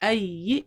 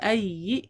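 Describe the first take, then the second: The two takes are said the same way.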